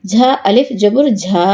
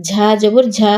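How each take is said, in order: First: Long, sustained ঝা; drawn-out vowel. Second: No stretch on ঝা; short vowel. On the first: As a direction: hold the final ঝা for one alif count. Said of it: "কোথায় টান দিই". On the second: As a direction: end on a short ঝা. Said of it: "কোথায় দ্রুত পড়ি". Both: Shown as a demonstration.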